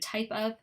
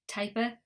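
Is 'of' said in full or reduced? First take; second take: full; reduced. First: The 'of' is said fully as a separate word. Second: The 'of' shrinks to a schwa joined on. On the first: "instead of" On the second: "combined ones ... that's a schwa sound"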